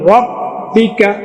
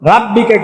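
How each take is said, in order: First: The first vowel is a short rounded 'o'. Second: The first vowel is a long open 'aa'. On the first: The speaker calls it right. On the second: The speaker calls it wrong. "রাব্বিকা কেউ বলবেন না"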